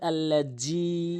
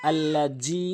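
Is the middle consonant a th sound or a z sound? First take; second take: z sound; z sound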